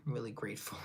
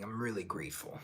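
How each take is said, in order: First: Unvoiced whisper of I'm really grateful. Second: Said in the usual way. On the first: Real, not acted. Thanking viewers for ten subscribers, whispered. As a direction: breathe the thanks out softly.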